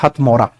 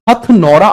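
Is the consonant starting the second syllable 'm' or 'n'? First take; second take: m; n. First: The second syllable begins with an m sound. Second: The second syllable begins with an n sound. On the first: "ये हथमौरा जगह है" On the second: "कुछ मतलब teachers शायद गलती से गलत लिखवा देते हैं"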